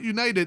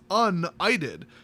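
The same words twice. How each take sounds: First: It is said with the usual 'united' sounds. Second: It is said with an 'itis' sound inside it. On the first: The speaker calls it wrong. "It's not United" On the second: The speaker calls it right. "as in they, they solved the itis"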